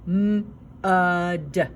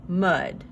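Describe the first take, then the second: First: M-uh-d split into sounds; sounding out words. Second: Said in the usual way. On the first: Shown as a demonstration. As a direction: stretch M-uh-d into three sounds. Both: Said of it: "Listen as I say mud".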